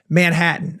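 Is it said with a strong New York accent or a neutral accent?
neutral. It is said in a neutral accent.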